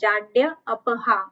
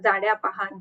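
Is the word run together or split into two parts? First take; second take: split; run together. First: The parts are said separately as two words. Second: The parts are run together as one word. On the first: The speaker calls it right. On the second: The speaker calls it wrong.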